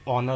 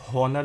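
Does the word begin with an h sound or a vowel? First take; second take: vowel; h sound. First: The word begins directly with a vowel. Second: The word begins with an h sound. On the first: The speaker calls it right. "ये ऑनर होता है। इसमें जो है H हो गया silent" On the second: The speaker calls it wrong. "ये इसको हम हॉनर नहीं बोलते हैं"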